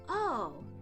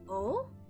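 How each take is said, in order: First: It sounds like slowly beginning to understand. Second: It sounds puzzled and unconvinced. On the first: The listener is starting to understand. "to give off the impression of slowly beginning to understand" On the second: The listener does not yet understand or believe it. "as if not quite comprehending or convinced"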